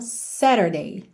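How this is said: It is said with an American accent.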